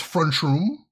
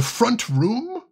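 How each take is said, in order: First: Chicago "front room" run together as "frunchroom"; Chicago accent, T turned to CH. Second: Said in the usual way. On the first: Shown as a demonstration. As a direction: demonstrate Chicago slurring into "frunchroom". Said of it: "in the Chicago accent is pr-, pronounced". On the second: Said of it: "which in the Chicago accent is".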